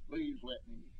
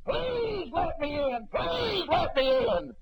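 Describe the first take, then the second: First: High, soft, hushed begging; soft plea. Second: High, slow, shouted begging; desperate pleading. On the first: The preacher echoes the damned crowd's plea, hushed and high. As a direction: let the plea fade like a far-off echo. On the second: The damned crowd beg to be let in, shouting slowly. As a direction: wail it out like a lost soul at the door. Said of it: "begging and pleading". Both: Retold or imitated.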